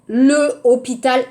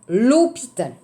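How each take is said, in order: First: The article is a full separate syllable. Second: The article is elided into the noun. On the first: The speaker calls it wrong. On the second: The speaker calls it right.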